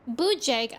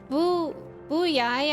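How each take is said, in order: First: The name ends with a hard 'jag' sound. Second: The name ends with a soft 'yai' sound. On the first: "I hardly know Jag" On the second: "Jag pronounced like Yai"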